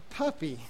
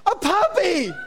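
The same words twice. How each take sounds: First: Low-key, quiet "puppy"; underwhelmed, softly spoken reaction; unenthused. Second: Very high, hammed-up squeal; over-the-top mock excitement; sucker's delight. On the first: Retold or imitated. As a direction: say it softly with no enthusiasm. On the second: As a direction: shriek it like a gullible puppy lover. Imitates a sucker falling for it.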